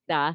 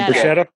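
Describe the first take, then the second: First: The R is a single quick flap. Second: The R is a long trill. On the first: The speaker calls it right. "with a flipped R" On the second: The speaker calls it wrong. "not a rolled R"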